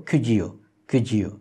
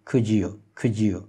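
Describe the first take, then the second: Both takes have the same delivery.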